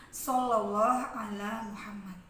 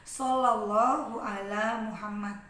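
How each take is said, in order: The two takes are said the same way.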